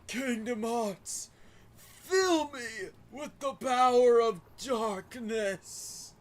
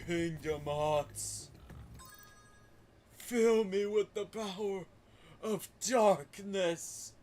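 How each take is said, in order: First: The voice is pitched fairly high. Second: The voice is pitched very deep. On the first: "But you gotta go deeper" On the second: "Ansem had like a really deep voice"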